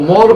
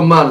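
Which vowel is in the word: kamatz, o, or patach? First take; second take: o; patach. First: The vowel is a full o sound. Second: The vowel is a short patach a sound. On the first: "זה לא מור" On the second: "ולא מר"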